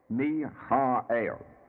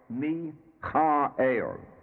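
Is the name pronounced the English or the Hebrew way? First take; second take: Hebrew; Hebrew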